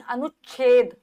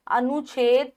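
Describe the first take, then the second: First: अनुच्छेद as 'anuch-chhed'; doubled chchh. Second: अनुच्छेद without the doubled sound, 'anu-chhed'; no stop before the chh in अनुच्छेद; single chh. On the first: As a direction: stop on the ch, then release chh in अनुच्छेद. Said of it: "चा भी आएगा". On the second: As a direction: say अनुच्छेद wrongly as 'anoo-chhed'. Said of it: "अनुच्छेद नहीं". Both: Shown as a demonstration.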